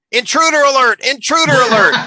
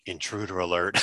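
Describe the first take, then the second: First: High, loud robot alarm. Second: Low, soft deflated robot voice; sulky robot. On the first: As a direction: blare it like a robot. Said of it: "the robot goes". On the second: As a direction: mumble it with hurt feelings. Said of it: "as he kind of sulks off". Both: Retold or imitated.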